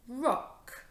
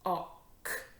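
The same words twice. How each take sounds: First: ROCK blended as one word, higher. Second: ROCK split as r, o, ck; sounded out. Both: Shown as a demonstration. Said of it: "This word is".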